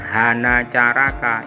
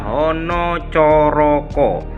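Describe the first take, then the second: First: The vowels are pronounced as an open a. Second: The vowels are pronounced as a rounded o. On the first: The speaker calls it wrong. "bukan hana caraka" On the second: The speaker calls it right. "Baris pertama adalah hono coroko"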